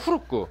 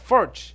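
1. 이 이름은 원어식으로 발음해요. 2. 이 이름은 영어식으로 발음해요. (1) "가장 이제 원어에 가까운 발음은 Fruk" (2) "영어권에서는 뭐 Furch"

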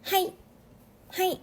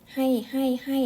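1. พูดด้วยพลังที่เข้มและมีชีวิตชีวา 2. พูดเรียบๆ มีพลังน้อย (1) "ต้องออกเสียงแบบมีพลังนิดนึงนะต้องออกเสียงเป็นให้แบบนี้" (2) "อย่าออกเสียงเป็นภาษาไทยแบบให้"

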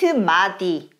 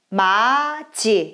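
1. Der mittlere Konsonant ist ein d-Laut. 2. Der mittlere Konsonant ist ein j-Laut. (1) "nicht Madi" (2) "Das ist Maji"

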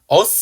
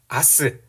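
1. 첫 모음은 중간 'uh' 소리입니다. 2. 첫 모음은 열린 'ah' 소리입니다. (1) "어스까진 괜찮아요" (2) "어스를 이제 아스라고 발음하는 겁니다"

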